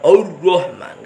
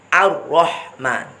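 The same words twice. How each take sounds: First: The opening a-sound is thick and heavy. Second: The opening a-sound is thin and light. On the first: The speaker calls it wrong. "jangan ikut tebalnya ro, jangan Ar-Rahman, enggak boleh" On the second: The speaker calls it right. "Hamzahnya tetap harus tipis"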